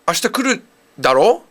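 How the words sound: It sounds like a question to the listener.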